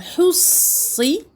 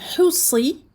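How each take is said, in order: First: The middle consonant is held long, doubled. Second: The middle consonant is short, not doubled. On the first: "il y a une shadda" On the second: "il y a absence de shadda"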